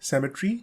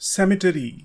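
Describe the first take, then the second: First: It is said with a British pronunciation. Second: It is said with an American pronunciation. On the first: "British इसको बोलते हैं सेमेट्री" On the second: "American कहते हैं सेमेटरी"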